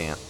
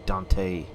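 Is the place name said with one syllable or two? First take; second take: one; two. First: The name is said with one syllable. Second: The name is said with two syllables. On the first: The speaker calls it right. "they pronounce it Dant" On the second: The speaker calls it wrong. "Whatever you do, don't say Dante"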